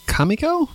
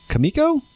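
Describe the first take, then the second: First: Questioning KAH-miko, rising high; Kamiko with open first A. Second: Questioning kuh-MIKO, rising high; Kamiko with reduced first vowel. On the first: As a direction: try Kamiko with a full 'ah' first. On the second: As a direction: try Kamiko with a short 'kuh' first. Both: Shown as a demonstration. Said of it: "never gonna know how to say this".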